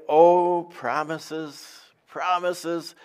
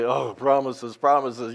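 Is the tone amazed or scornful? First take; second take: amazed; scornful. First: It sounds amazed and delighted. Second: It sounds scornful and disbelieving.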